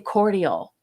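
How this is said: It is pronounced the British way. "the British way of uh, pronouncing it"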